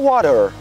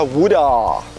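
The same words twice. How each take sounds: First: It is said with an American accent. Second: It is said with an Australian accent. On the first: "nos Estados Unidos se fala water" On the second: "Aqui se fala water"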